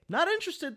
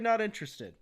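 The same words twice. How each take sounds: First: It is said in a passive-aggressive tone. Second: It is said in a plain, neutral tone.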